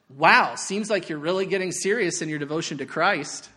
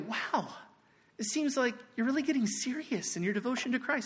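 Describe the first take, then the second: First: The tone sounds harsh and sarcastic. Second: The tone sounds warm and loving.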